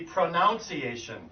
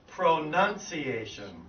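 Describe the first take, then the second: First: The second syllable sounds like 'noun'. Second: The second syllable sounds like 'nun'. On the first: It follows the spelling of the word. "that would normally be pronunciation" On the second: It is how people actually say the word. "we actually say pronunciation"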